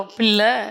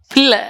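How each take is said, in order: First: "பிள்ளை" drawn out and lower, with relish; savoured "பிள்ளை". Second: Said in the usual way. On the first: Shown as a demonstration. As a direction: linger on "பிள்ளை" as if tasting it. ("பிள்ளை" என்று ருசித்து, இழுத்து) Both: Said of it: "டேஸ்டா சொல்லுங்க".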